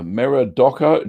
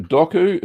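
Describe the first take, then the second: First: "Doku" read out tentatively; first go at saying "Doku"; first try at a name. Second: "Doku" repeated with a high questioning rise on "ku"; checking the name. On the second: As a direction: ask "Doku?" with a pitch jump upward. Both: Shown as a demonstration.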